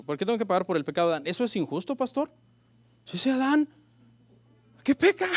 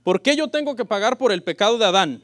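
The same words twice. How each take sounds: First: Fast, rising indignant complaint; mock questioner. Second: Loud question. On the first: A church member complains to the pastor, fast and indignant. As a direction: whine it like a doubter protesting. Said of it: "una pregunta que me han hecho". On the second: Shown as a demonstration. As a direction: read out boldly, louder. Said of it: "me han hecho".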